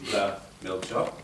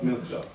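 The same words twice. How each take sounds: First: THE before milk job, slow and drawn out; the version to reject, "the" set before "milk job"; with the article. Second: Said in the usual way. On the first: Shown as a demonstration. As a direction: spell out "the milk job" slowly. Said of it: "Not the milk job". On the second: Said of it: "but milk job".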